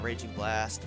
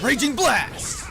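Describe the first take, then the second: First: It is said flatly, without enthusiasm. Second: It is shouted with lots of energy. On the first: The character does not care much. The speaker calls it wrong. "Yuri's just kind of like, yeah, ... whatever" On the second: The character is fully into the attack. The speaker calls it right. "Luke really gets into it. ... I think he like shouts it"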